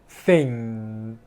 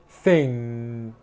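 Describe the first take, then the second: Both takes have the same delivery.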